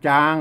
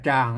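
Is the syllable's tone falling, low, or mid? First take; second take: mid; low. First: The syllable is said with a level mid tone. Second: The syllable is said with a low tone. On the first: "จางเสียงสามัญ" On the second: "ใส่ไม่เอกเข้าไป"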